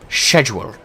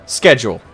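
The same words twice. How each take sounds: First: It is said with a British pronunciation. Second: It is said with an American pronunciation. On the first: "Over just over the pond" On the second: "Here in here in America"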